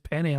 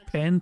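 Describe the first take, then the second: First: The word ends with an ee vowel sound. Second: The word ends on the n sound. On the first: "and sometimes penny" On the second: "I sometimes pronounce it as pen pasta"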